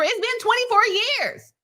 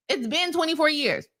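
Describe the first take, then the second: First: Mock voice. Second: Said in the usual way. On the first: Mocking take, then repeated plainly.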